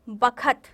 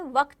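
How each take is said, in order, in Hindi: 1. यह b से शुरू होता है और इसमें तीन शब्दांश हैं। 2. यह v से शुरू होता है और kt पर खत्म होता है। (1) "गांव की बोली में कई शब्दों के उच्चारण बदल जाते हैं" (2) "वक्त यानी समय"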